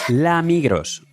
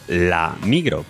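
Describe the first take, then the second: First: The name ends with an audible s sound. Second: The name ends on a vowel, without s. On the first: The speaker calls it wrong. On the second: The speaker calls it right.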